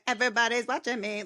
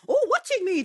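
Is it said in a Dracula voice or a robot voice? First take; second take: robot; Dracula. First: It is said in a robot voice. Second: It is said in a Dracula voice.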